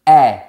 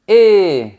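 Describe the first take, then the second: First: The vowel is an open 'eh' sound. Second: The vowel is a closed 'ay'-like sound. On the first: "Quand on a la lettre E avec un accent grave, un accent circonflexe ou un tréma, on dit E" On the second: "Quand on a la lettre E avec un accent aigu, on dit E"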